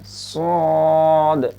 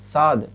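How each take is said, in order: First: The s sound is heavy and thick. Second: The s sound is light and thin. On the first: The speaker calls it right. "मोटा करके सौद" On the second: The speaker calls it wrong. "ऐसे नहीं पढ़ना है"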